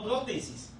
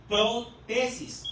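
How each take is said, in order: First: "prótesis" as one word, stressed on PRÓ; PRÓtesis pronunciation. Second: "protesis" slowly split as pro–TESIS; pro-TESIS pronunciation. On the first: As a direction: say "prótesis" joined up, accent on the first syllable. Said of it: "pero no es igual". ("prótesis" seguido, con acento en PRÓ) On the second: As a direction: say "protesis" in two drawn-out parts, weight on TE. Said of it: "no prótesis". ("protesis" lento y separado: pro… TESIS) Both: Shown as a demonstration.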